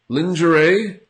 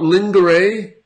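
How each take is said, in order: First: The g is pronounced as a 'zh' sound. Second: The g is not pronounced as 'zh'. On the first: The speaker calls it right. "the G has a Z sound. It's like a very strong S H" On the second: The speaker calls it wrong. "It's not lingerie"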